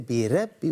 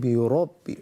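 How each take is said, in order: First: The R is pronounced light and thin. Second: The R is pronounced heavy with full mouth. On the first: The speaker calls it wrong. "We don't say" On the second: The speaker calls it right. "we sing bi rabbi, ra, ra. Ra is a full mouth letter"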